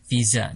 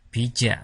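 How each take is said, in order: First: The word starts with a V sound. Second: The word starts with a B sound. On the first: This is the original foreign way of saying it. "pengucapan aslinya ini pengucapannya agak tebal" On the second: This is the Korean way of saying it. "penulisannya pakai bieup, bija"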